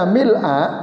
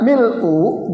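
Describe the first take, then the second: First: The word ends with an 'a' vowel. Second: The word ends with a 'u' vowel. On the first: The word describes the praise as an adjective. "sifatnya pun harus fathah" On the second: The word is the predicate of an unstated subject. "dibaca mil'u dhamma"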